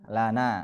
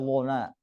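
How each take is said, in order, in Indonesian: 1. L dibaca ringan dan tipis. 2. L dibaca berat dan tebal. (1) "harus baca tipis" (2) "enggak boleh"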